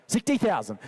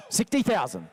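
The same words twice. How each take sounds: The two takes are said the same way.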